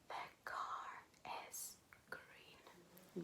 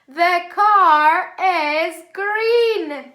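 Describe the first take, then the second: First: It is said very quietly. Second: It is said very loudly.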